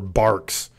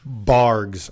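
First: The name ends with a voiceless k sound. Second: The name ends with a voiced g sound. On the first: "hear the K pronunciation" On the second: "maybe I just myself added a G to it"

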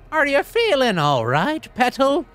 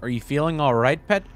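First: It is read in a put-on hag's voice. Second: It is read in the speaker's own voice.

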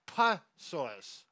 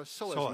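First: The word begins with a pronounced P sound. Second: The word begins with an S sound, P silent. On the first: The speaker calls it wrong. "also people say psoas. Because there's a P at the beginning" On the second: The speaker calls it right. "So we'll just simply call it the psoas muscle"

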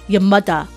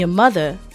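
First: It is said in a Jamaican accent. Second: It is said in the speaker's ordinary accent. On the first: "I made it a Jamaican accent" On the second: "Instead of saying your mother"

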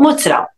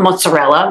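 First: It is said with a Brooklyn Italian-American pronunciation. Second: It is said with a standard American pronunciation. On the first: This is how the speaker's community said it growing up. "We call it mozzarella" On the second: This is the form the speaker's community did not use. "We didn't call it mozzarella"

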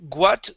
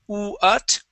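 First: The word begins with a hard g sound. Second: The word begins with an oo sound. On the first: The speaker calls it wrong. "Instead of saying guat" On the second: The speaker calls it right. "think of an oo, and we say uut"

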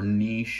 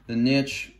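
First: The word is said in a fancier, elitist-sounding way. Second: The word is said in a plain, everyday way. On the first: The speaker wants to sound like an elite scientist. "if you want to sound super elitist scientist" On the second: An ordinary speaker is talking. "just the niche"

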